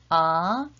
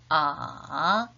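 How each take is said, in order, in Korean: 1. 음높이가 중간에서 높게 올라갑니다. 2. 음높이가 낮게 내려갔다가 조금 올라갑니다. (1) "이성은 중간 음에서 위로" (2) "삼성은 낮은 음에서 더 낮은 음으로 내려갔다가 살짝 올라가죠"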